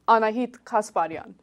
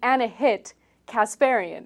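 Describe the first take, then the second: First: The name is said with an Armenian accent. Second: The name is said with an American accent. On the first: The speaker calls it right. "it sounds a little better" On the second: The speaker calls it wrong. "If I were to Americanize my entire name"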